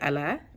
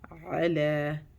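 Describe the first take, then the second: First: It starts with a plain glottal catch. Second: It starts with a squeezed sound from the throat. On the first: The speaker calls it wrong. "If you say ala, it's wrong. You making you change the hamza uh, ain to hamza" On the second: The speaker calls it right. "bring out the ain sound"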